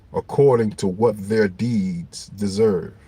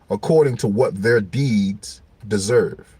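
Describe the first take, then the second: The two takes are said the same way.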